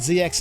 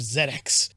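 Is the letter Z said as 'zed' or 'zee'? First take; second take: zee; zed. First: The letter Z is said as 'zee'. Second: The letter Z is said as 'zed'. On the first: This is the speaker's own way of saying it. "I said Z X" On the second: This is the way other countries say it. "instead of Z X"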